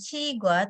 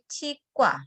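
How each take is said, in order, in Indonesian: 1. Konsonan tengahnya polos, tidak tegang. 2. Konsonan tengahnya tegang dan kuat. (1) "Membacanya bukan" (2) "Gioknya berubah menjadi sang giok"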